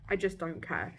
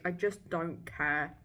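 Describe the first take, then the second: First: Said in the usual way. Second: Drawn-out "I just don't care."; slow. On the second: Real, not acted. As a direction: drag it out, bored.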